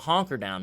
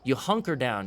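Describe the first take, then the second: First: The first vowel sounds like the 'o' in 'honk'. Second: The first vowel sounds like the 'u' in 'hunt'. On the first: The speaker calls it wrong. "You don't honker down" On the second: The speaker calls it right.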